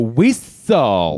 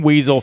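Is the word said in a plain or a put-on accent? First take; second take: put-on; plain. First: It is said in an exaggerated Cholo-style accent. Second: It is said in a plain, ordinary accent. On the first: "you go whistle" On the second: "instead of saying weasel"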